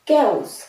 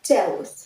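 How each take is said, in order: First: It begins with a 'k' sound. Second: It begins with a 'ch' sound. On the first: The speaker calls it right. "But it's chaos" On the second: The speaker calls it wrong. "not chaos"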